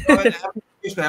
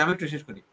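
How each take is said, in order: First: Louder, higher, holding the floor; firm cut-in. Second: Drops softer once the floor is held; softer repeat. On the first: Host stops the interrupting guest, firm and louder. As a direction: stop the interruption. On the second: Host repeats the request to the guest, softer. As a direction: settle it quietly. Cutting off interruption. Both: Real, not acted.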